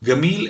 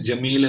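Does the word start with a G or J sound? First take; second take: G sound; J sound. First: The word starts with a G sound. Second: The word starts with a J sound. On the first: This is how Egyptians say it. "ഈജിപ്തുകാർ അത് ഗമീൽ എന്നാണ് പറയുക" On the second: This is how Saudis say it. "സൗദിക്കാര് ജമീൽ എന്ന് പറയുമ്പോൾ"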